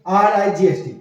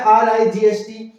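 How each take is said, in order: First: Said in the usual way. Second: Slow spelling out. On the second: Shown as a demonstration. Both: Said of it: "देखो spelling भी same है".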